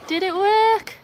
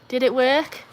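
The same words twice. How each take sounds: First: Squeaky high, worried repeat of the question; high anxious repeat. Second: Said in the usual way. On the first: Real, not acted. Streamer squeaks the question again at a high pitch. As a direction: pitch it way up in hope.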